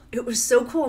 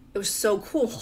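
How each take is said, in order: First: Louder, brighter, leaning on so; excited emphasis. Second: Said in the usual way. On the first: Real, not acted. Mom reliving the plane trip with delight. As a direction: push it up with delight.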